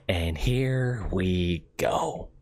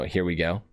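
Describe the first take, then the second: First: Very slow, drawn-out villain voice; slow drawn-out Joker line; Joker impression. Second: Said in the usual way. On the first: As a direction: stretch every word like the Joker savoring it. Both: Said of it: "The one that I could do automatically for the Joker".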